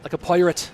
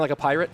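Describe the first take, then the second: First: "pirate" said as "poirate"; mock Irish accent. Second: Said in the usual way. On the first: Shown as a demonstration. Streamer asking if he sounds like a pirate, "pirate" with exaggerated Irish "oi". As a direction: turn the first vowel of "pirate" into "oi". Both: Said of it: "Do I sound like a pirate?".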